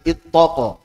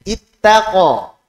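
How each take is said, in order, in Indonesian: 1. Bunyi t diucapkan tebal dan berat. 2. Bunyi t diucapkan tipis dan ringan.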